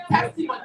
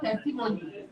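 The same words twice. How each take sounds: First: "testimony" as TES-ti-mo-ny, stressed up front; correct pronunciation. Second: "testimony" in the mistaken, flatter-stressed way; wrong pronunciation. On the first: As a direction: model "testimony" for the class. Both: Shown as a demonstration. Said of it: "not testimony".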